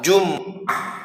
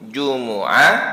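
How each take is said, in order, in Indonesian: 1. Tidak ada vokal yang mengikuti bunyi m. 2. Vokal u mengikuti bunyi m. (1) "bisa dibaca dengan sukun" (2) "Bisa dibaca dengan dhammah"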